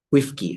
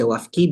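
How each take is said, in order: First: The first vowel is a close 'i'. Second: The first vowel is an open 'a'. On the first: "bisa dibaca wifki" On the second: "Ini bisa dibaca wafki"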